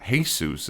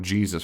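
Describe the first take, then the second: First: Jesus said as hay-SOOS; Spanish pronunciation. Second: Said in the usual way. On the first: Shown as a demonstration. Telling viewers other languages are fine, Jesus as hay-SOOS. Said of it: "say you're speaking Spanish". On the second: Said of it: "where we get the word".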